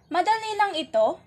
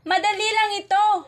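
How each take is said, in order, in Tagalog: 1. Binibigkas ito bilang tanong. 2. Binibigkas ito bilang masayang padamdam. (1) "ito ay nagtatanong" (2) "ito naman ay nangangahulugang nagbubunyi"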